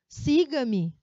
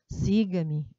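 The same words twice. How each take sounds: First: It is said loudly with strong emphasis. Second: It is said quietly in a lower tone. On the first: It is a firm, heated order. "imagina nesse tom" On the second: It is a milder, lighter order. "para esse tom mais baixo"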